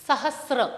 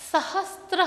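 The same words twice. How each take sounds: First: सहस्र with a clean स्र cluster and no t; the pure Sanskrit सहस्र, स then र directly; correct pronunciation. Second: The common mistaken सहस्त्र, a t slipped in before र; wrong pronunciation. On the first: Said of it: "Sanskrit में शुद्ध उच्चारण के लिए". (सहस्र – बिना 'त' के शुद्ध उच्चारण) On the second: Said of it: "कदाचित् मातृभाषा के प्रभाव से". (सहस्त्र – बीच में 'त' जोड़कर गलत उच्चारण) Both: Shown as a demonstration.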